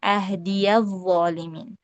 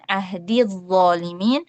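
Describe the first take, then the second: First: The ya is pronounced with an a vowel. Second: The ya is silent and runs straight into dz. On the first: "dibaca dengan fathah" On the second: "membaca ya idhafahnya itu dengan sukun"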